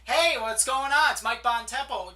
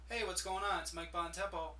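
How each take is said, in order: First: The voice is lively and full of energy. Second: The voice is flat and low in energy. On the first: The caller seems like an authority who wants to be there. The speaker calls it right. "I sound like an authority. Okay, I sound like I have energy" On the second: The caller seems like a salesperson nobody wants to hear. The speaker calls it wrong. "the first one, you sound like a salesperson. You sound low energy"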